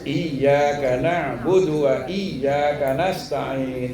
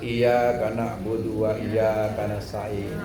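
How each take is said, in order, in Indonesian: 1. Bunyi 'y' dobel dan ditekan. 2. Bunyi 'y' pendek dan tunggal. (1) "Harus digentak di sidah" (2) "Nggak boleh nggak ada sidahnya"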